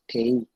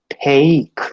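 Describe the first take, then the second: First: The first consonant has no puff of air. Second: The first consonant has a puff of air. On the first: "At least phonemically it is take" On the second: "phonetically it is take"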